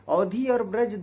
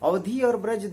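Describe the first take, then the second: The two takes are said the same way.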